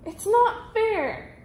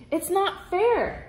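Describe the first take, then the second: First: Much higher, very slow tantrum wail; bigger whine. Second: Higher, slow petulant cry; a spoiled noble whining; whiny protest. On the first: Grand Duke throwing a tantrum, much higher and very slow. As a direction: wail it out like a spoiled child. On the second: Grand Duke whining at missing the hat, higher and slow. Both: A narrator's reading. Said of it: "cried the Grand Duke".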